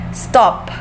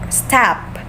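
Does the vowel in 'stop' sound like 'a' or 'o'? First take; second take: o; a. First: The vowel sounds like the letter o. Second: The vowel sounds like the letter a. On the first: The speaker calls it right. "since it is O man" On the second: The speaker calls it wrong. "if it's A, it's pronounced as tap or tap"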